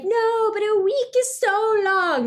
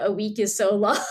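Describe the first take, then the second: First: Put-on high, slow whine of a complaining teen; mock teen whining about a long week; whiny protest. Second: Said in the usual way. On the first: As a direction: whine it like a kid begging. Characters whine about the ban.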